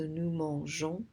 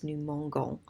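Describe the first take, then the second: First: Mangeons with a soft zh for the G. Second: Mangons with a hard g as in go. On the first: Teacher showing why the E stays, mangeons with soft zh. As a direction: say mangeons with the G softened to zh. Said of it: "to soften it up". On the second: Teacher taking that E out, mangons with hard g. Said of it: "if you take that E out". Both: Shown as a demonstration.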